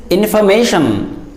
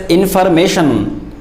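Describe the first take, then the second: First: Information with silent R, in-fuh-MAY-shun; real pronunciation. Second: Information with the R sounded, in-far-MAY-shun; common mispronunciation. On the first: Teacher correcting many people, information with R silent. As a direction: say information without the R. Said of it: "R in that word is silent". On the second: Teacher showing many people's mistake, information with R pronounced. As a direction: say information with an audible R. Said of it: "Many people pronounce it as". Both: Shown as a demonstration.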